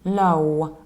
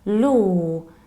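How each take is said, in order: First: The word ends with a strong w glide. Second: The word ends without any w glide. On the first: The speaker calls it wrong. "with a very strong final W" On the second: The speaker calls it right. "we need to pronounce it like law"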